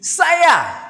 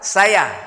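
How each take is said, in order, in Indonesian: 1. Kata saya diucapkan dengan nada tinggi. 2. Kata saya diucapkan dengan nada datar. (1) "Saya dengan nada tinggi" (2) "Kalau datar"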